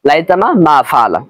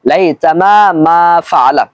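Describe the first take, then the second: First: The vowels are short, with no lengthening. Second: The long vowels are clearly drawn out. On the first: This leads to a spelling mistake. The speaker calls it wrong. "যখন আমরা টান ছাড়া পড়ি" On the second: This gives the correct spelling. The speaker calls it right. "এইভাবে আমরা টান দিয়ে পড়বো"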